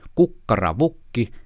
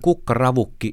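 First: The secondary stress falls on the syllable vuk. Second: The secondary stress falls on the syllable ra. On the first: The speaker calls it wrong. "kuinka painottaa tavut" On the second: The speaker calls it right. "ei kun"

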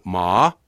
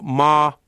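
First: The pitch rises from low to high. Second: The pitch stays level and flat throughout. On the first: It means hemp. "nouseva sävelkorko" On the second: It means mother. "tämä tasainen sävelkorko"

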